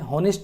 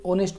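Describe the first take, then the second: First: The word begins with an h sound. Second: The word begins directly with a vowel. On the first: The speaker calls it wrong. "नहीं पढ़ते" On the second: The speaker calls it right. "ऑनेस्ट पढ़ते हैं, ओ उच्चारण हुआ"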